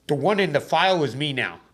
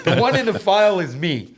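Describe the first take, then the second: First: Said in the usual way. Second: "The one in the file is me" laughed out higher and louder; laughing. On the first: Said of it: "repeats it laughing". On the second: Real, not acted. Retelling the courtroom reply, laughing. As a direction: laugh through the line. Repeats quote while laughing.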